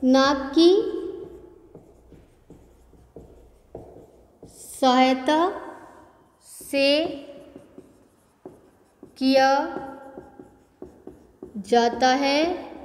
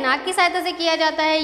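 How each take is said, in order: First: Slow dictation. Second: Quick explanation. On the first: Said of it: "इसका उच्चारण". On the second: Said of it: "इसका उच्चारण क्या है". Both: Shown as a demonstration.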